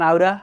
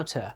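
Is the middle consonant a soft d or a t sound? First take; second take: soft d; t sound. First: The middle consonant is a soft d sound. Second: The middle consonant is a clear t sound. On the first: "American accent বলবেন আউডা" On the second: "British accent বলবেন আউটা"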